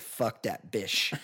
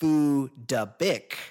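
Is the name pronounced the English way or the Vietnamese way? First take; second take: English; Vietnamese. First: The name is said with English sounds. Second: The name is said with Vietnamese sounds. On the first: "in English it just looks like" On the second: "the proper pronunciation, the Vietnamese pronunciation"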